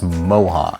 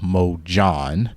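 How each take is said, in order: First: The J sound is left silent. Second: The J sound is pronounced. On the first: The speaker calls it wrong. "The J is actually silent" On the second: The speaker calls it right. "The company is actually called Mojon"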